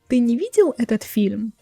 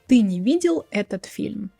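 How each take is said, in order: First: It is said with question intonation. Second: It is said with statement intonation. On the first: It asks the listener something. "But if I want to ask you" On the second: It states a fact. "I can say a statement"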